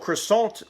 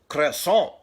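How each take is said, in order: First: The word is said with a plain English accent. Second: The word is said with a French accent.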